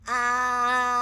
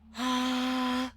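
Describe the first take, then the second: First: The voice is pinched and pressed. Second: The voice is breathy and airy.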